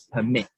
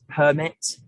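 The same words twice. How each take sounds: First: The stress is on the second syllable. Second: The stress is on the first syllable. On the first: It is the verb. "there's more emphasis on the second syllable of mit" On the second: It is the noun. "I stress the syllable per"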